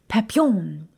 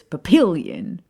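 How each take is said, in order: First: It is said with French pronunciation. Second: It is said with American Nebraska pronunciation.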